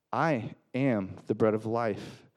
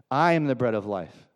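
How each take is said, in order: First: Slow "I am the bread of life", pausing after "I" and "am"; weighty, deliberate repeat. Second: Said in the usual way. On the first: Acted. Jesus answering the crowd, slow separated stress on "I am". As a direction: set "I" and "am" apart, slowly and deliberately.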